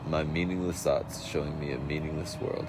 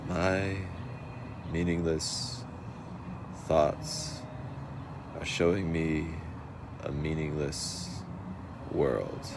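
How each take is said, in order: First: The sentence is spoken at a faster pace. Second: The sentence is spoken at a slower pace. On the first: The speaker calls it wrong. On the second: The speaker calls it right.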